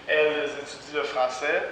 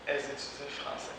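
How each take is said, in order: First: The L sound in 'elles' is clearly pronounced. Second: The L sound in 'elles' is left out. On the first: This is the standard careful form. "c'est très correct de dire" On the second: This is a casual spoken form. "c'est possible que des personnes disent"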